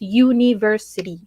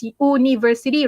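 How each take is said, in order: First: "university" begun with a "you" sound; correct pronunciation. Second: "university" wrongly begun with "oo", as "oo-niversity"; spelling pronunciation. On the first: Teacher modelling the right way for students, "university" as "you-niversity". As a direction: put a clear y-glide at the start of "university". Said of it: "you pronounce it as". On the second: Teacher sounding out the spelling for students, "university" as "oo-niversity". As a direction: drop the y-glide, start "university" on a pure "oo". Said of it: "the way it's spelled". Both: Shown as a demonstration.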